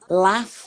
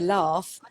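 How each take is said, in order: First: The word is said in a northern English accent. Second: The word is said in a non-northern English accent. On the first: "she's from the north of England. She's from Yorkshire. ... She might say" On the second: "I say laugh"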